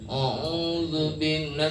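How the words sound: The sound comes out through the nose. The speaker calls it wrong. "itu hidung tuh"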